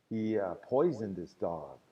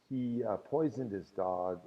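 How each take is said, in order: Both takes have the same delivery.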